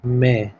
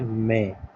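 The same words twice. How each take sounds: First: It is pronounced in a Hindi style. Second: It is pronounced in an English style. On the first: The speaker calls it wrong. "मई को हम कहते हैं" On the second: The speaker calls it right. "सही pronunciation है"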